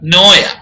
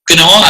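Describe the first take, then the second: First: The word starts with no K sound. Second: The word starts with an audible K sound. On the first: The speaker calls it right. "ചിലത് silent ആണ്" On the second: The speaker calls it wrong. "ക്നോ അല്ല"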